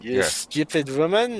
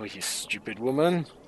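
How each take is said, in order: First: It is said in an exaggerated French accent. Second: It is said in a plain, natural accent. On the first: The speaker calls it right. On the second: The speaker calls it wrong.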